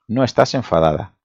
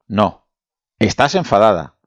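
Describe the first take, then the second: First: It is said without a pause after no. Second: There is a pause after no.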